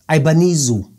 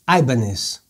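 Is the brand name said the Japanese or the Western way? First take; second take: Japanese; Western. First: The name is said the Japanese way, ending '-nizo'. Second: The name is said the Western way, ending '-nez'. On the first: "em japonês pronuncia-se Ibanizo" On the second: "Vamos optar por Ibanez"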